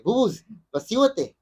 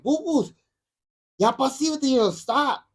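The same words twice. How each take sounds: First: Higher-pitched retold warning; mock first telling-off, not yet upset. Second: High-pitched upset scolding, retold; mock exasperated warning, voice pitched way up. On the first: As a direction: imitate a grandfather telling a child to settle down. Grandfather telling child to stop. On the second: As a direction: imitate an upset grandfather telling a child to stop. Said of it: "And he got upset".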